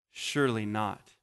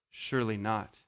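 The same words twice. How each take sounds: First: Stunned hush. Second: Soft, dropped low in shock; horrified realization. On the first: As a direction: let it sink in quietly. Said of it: "And then there's this pause". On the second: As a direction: let the horror dawn. Leaders realizing, said again. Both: Retold or imitated.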